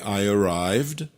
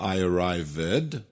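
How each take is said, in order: First: The -ed ending adds no extra syllable. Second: The -ed ending is said as an extra syllable. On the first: The speaker calls it right. "qui est I arrived" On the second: The speaker calls it wrong. "pas I arrived"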